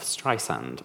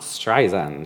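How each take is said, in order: First: The middle consonant is a hissing s sound. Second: The middle consonant is a buzzing z sound. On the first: The speaker calls it right. "like sand on the beach" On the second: The speaker calls it wrong. "It's not Streisand, she often says, my friend [name] has a Z"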